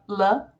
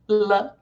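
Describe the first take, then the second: First: The L sound is clear and light. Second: The L sound is clear and light.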